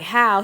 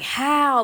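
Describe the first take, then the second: First: The word is said short and plain. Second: The word is stressed and drawn out.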